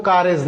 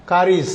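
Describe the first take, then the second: First: "কারেজ" with an "e" in the last syllable; mispronounced carriage. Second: "কারিজ" with a short "i" in the last syllable; correct carriage. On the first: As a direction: say "কারেজ" as ka-rej, the mistaken way. ("কারেজ", ভুল উচ্চারণে "কা-রেজ") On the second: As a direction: say "কারিজ" as ka-rij. ("কারিজ", সঠিক উচ্চারণে "কা-রিজ") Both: Shown as a demonstration. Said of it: "এর উচ্চারণ কিন্তু কারেজ না".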